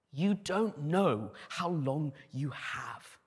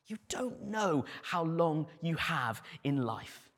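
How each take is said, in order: First: Slow, weighty emphasis on each word; slow emphatic. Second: Said in the usual way. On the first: Shown as a demonstration. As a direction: lay it down slowly.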